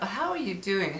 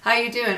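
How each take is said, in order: First: It is said in a warm, sincere way. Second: It is said in a quick, dismissive way.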